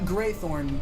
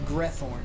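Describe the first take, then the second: First: The first syllable sounds like 'gray'. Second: The first syllable sounds like 'greh'. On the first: The speaker calls it wrong. "not Greythorn" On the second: The speaker calls it right. "Like G R E Thorn"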